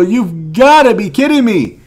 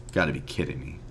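First: Loud, high outburst of disbelief; real frustration boiling over; loud furious disbelief at another single card; exasperated yell. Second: Soft, low, defeated mutter; all the fight drained out, real letdown; quiet, crushed disbelief at a bad pack; deflated. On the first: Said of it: "I'm about to lose my mind". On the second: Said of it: "I am so depressed right now". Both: Real, not acted.

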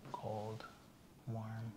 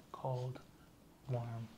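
The two takes are said the same way.

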